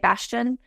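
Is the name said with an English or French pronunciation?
English. The name is said with an English pronunciation. "if we were just speaking English, we would just say Bastien"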